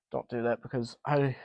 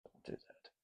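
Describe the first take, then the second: First: Said in the usual way. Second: Barely voiced under the breath; whispered. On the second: Real, not acted. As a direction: whisper it to yourself. Muttering to himself while handling the fan.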